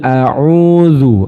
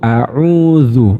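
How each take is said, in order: The two takes are said the same way.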